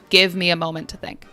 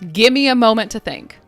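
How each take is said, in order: First: Give is stressed and fully pronounced. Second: Give me is quick, with the v dropped. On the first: "Or if we are emphasizing" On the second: "usually we say it quickly, like gimme"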